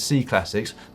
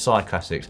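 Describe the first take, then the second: First: The first word sounds like 'see'. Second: The first word sounds like 'sigh'. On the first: The speaker calls it wrong. "why do you pronounce C Classics as C Classics?" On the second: The speaker calls it right. "Presumably it's Cy Classics"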